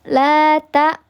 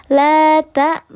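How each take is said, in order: No difference in how they are said.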